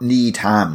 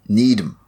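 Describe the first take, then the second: First: It is said as two words, with a full 'ham'. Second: It is said as one word, with a reduced ending. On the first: The speaker calls it wrong. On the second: The speaker calls it right.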